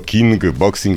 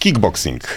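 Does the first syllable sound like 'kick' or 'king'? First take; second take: king; kick. First: The first syllable ends in an ng sound. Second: The first syllable ends in a k sound. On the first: The speaker calls it wrong. "ale to zupełnie źle" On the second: The speaker calls it right. "ale to nie tak, dokładnie. Kickboxing"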